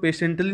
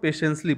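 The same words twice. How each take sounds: First: "patiently" said with a clear T before "-ly"; wrong pronunciation. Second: "patiently" with S in place of the second T; corrected pronunciation. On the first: Teacher shows how not to read "patiently", as PAY-shunt-lee. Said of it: "इसको patiently नहीं पढ़ते हैं". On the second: Teacher shows students how to read "patiently", as PAY-shuns-lee. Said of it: "इसको patiently पढ़ते हैं". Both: Shown as a demonstration.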